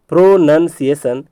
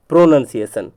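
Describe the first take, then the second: First: "प्रोनंसिएशन" in three pieces, pro, nun, ciation; broken into parts. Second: Said in the usual way. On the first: Shown as a demonstration. Teacher drilling the spelling, broken into parts. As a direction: separate each part of "प्रोनंसिएशन". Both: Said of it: "बताया कि प्रो है".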